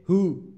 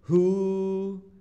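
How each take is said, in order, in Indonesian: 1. Vokalnya pendek, satu ketukan. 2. Vokalnya panjang, ditahan dua ketukan. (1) "Tidak boleh hu" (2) "tapi harus hu"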